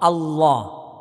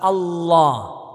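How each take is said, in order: Both takes have the same delivery.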